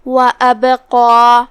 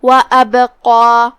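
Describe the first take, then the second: First: Louder, slow recitation of وَأَبْقَى; heavy qaf and alif. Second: وَأَبْقَى with a bounced, echoing b; louder recitation of وَأَبْقَى with qalqala. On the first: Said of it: "تو ہم اسے ایسے پڑھیں گے". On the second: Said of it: "با کو ہلاتے ہوئے یہ کلمہ کو پڑھیں گے". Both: Shown as a demonstration.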